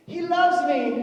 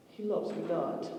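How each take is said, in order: First: High, loud, giddy squeal; delighted flower-picking girl; gushing girl. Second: Soft, slow letdown; a hint of a pout; disappointed girl. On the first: Retold or imitated. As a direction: squeal it like a love-struck girl. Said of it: "and they go". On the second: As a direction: let it sink, quiet and sad. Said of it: "Then she goes".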